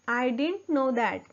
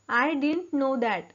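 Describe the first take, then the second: The two takes are said the same way.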